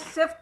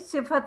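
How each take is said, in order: First: The f and t are said together without a vowel. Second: A short vowel is said between the f and t. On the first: The speaker calls it wrong. "ये सिफ्त नहीं" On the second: The speaker calls it right. "सिफत है"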